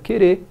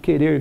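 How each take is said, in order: First: The final R is left off. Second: The final R is pronounced.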